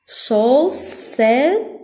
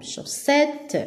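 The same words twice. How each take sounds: First: "Chaussette" in three separate beats, chau, sse, tte; syllable by syllable. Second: Said in the usual way. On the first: Shown as a demonstration. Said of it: "on a trois syllabes". (« Chaussette » découpé en trois syllabes) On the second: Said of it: "Donc, la deuxième syllabe".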